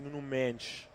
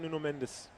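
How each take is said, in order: First: The name is said with a Portuguese accent. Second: The name is said with an English accent.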